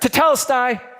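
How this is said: It is said as a servant's dutiful report.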